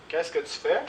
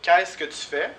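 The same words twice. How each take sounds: First: Fais carries the stress, the question rising at the end; a calmer second model for the class to copy; repeat for class. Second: Qu'est-ce stressed, higher and louder, with a rising question tune; question model. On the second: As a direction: lift Qu'est-ce high and loud to open the question. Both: Shown as a demonstration. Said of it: "Les questions avec faire".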